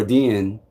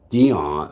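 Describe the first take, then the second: First: "Dion" with a closed, short last vowel; pronunciation DEE-YIN. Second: "Dion" with an open AH in the last syllable; pronunciation DEE-ON. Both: Shown as a demonstration. Contrasts two pronunciations of the name.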